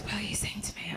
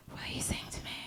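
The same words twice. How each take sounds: First: Whispered, hushed and quiet; creepy quiet whisper; soft whisper. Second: Whispered, very soft and quiet; hushed creepy whisper. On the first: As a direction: barely breathe the question. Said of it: "Like this". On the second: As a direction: breathe it out softly like a creepy cabbie. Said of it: "very softly and very quietly goes". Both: Retold or imitated.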